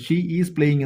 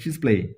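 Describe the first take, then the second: First: Both words 'she is' are said in full. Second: 'She is' is squeezed into one syllable. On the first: This is how learners usually say it. "ഷീ ഈസ് playing എന്ന് നമ്മൾ പറയും" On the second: This is how native speakers say it. "ഇംഗ്ലീഷുകാരെന്ത് പറയും?"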